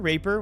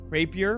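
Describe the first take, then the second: First: The word is said with two syllables. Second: The word is said with three syllables. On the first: The speaker calls it wrong. "I heard people call it raper before" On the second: The speaker calls it right. "I'm sure it's just rapier"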